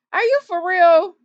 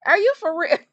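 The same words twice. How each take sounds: First: Amused, incredulous repeat; laughing disbelief. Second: Said in the usual way. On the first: Real, not acted. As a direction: repeat it louder through a laugh. Repeats the question, now laughing.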